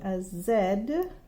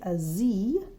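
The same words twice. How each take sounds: First: The letter is said the British way, zed. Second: The letter is said the American way, zee.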